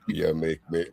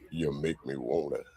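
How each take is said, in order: First: It is said in a normal voice. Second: It is said in a deep voice.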